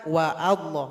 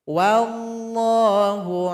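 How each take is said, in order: First: A separate 'a' vowel starts 'Allah' after 'wa'. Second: The 'wa' runs straight into 'llah' without a break. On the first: The speaker calls it wrong. "Salah kalau dibaca wa Allah" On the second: The speaker calls it right. "kalau hamzah wasalnya berada di tengah atau didahului oleh huruf lain, maka nggak dibaca"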